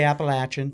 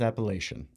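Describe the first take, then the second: First: The word is said the local regional way. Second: The word is said the widespread outside way. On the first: This is how people from the region say it. "We say Appalachian" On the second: This is how people elsewhere say it. "Everybody else in the world says Appalachian"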